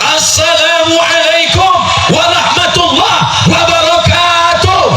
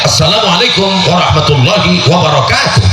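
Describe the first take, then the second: First: The greeting is said with a strongly raised voice. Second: The greeting is said with a somewhat raised voice. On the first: "kalau lebih tinggi" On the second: "kalau suara saya agak saya tinggikan"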